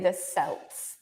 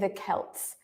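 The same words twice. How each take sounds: First: The word begins with an S sound. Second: The word begins with a K sound. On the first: The speaker calls it wrong. "We don't say the Celts" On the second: The speaker calls it right. "We say the Celts"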